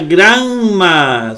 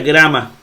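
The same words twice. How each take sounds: First: The middle consonant is held long. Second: The middle consonant is short and single. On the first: The speaker calls it wrong. "La otra no se pronuncia grama" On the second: The speaker calls it right. "Se pronuncia grama"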